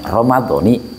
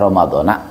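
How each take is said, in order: First: The word ends with an 'i' vowel. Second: The word ends with an 'a' vowel. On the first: "Namun yang lebih baik dibacanya Ramadhani" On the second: "Jika dibaca Ramadhana tetap puasanya tetap tetap sah"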